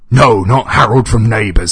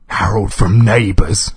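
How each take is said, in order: First: Loud, high-pitched shout; exasperated scream. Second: Louder, higher, anxious query; nervous question. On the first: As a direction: yell the correction in outrage. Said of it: "screamed the voice". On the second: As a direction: ask in nervous disbelief. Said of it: "he asked nervously". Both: A narrator's reading.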